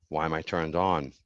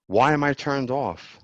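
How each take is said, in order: First: Said in the usual way. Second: Higher, slower startled question; surprised. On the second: Real, not acted. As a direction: caught off guard by the mute button. Startled by a tech glitch.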